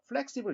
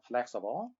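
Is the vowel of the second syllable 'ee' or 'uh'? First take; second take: ee; uh. First: The second syllable has a clear 'ee' vowel. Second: The second syllable has a weak 'uh' vowel. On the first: The speaker calls it wrong. "이로 발음하지 말고" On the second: The speaker calls it right. "영어의 이자는 약한 어. 그래서 flexible 이렇게 발음을 해주면 되겠죠"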